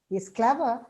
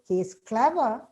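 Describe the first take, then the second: The two takes are said the same way.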